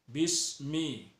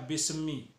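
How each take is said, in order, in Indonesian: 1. Bunyi m halus, tidak ada pantulan. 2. Bunyi m dipantulkan, ada pantulannya. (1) "Jadi kita harus membaca kalimatnya uh, bismi ya" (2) "Tidak boleh memnya itu dipantulkan. Misalnya bismi, tidak boleh"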